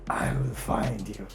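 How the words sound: It is said in a menacing, monster-like tone.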